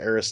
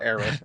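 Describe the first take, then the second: First: The name ends with an s sound. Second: The name ends with a th sound. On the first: The speaker calls it right. "she's Eris to me" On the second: The speaker calls it wrong. "the th- it, I don't know. It sounds like a bad lisp"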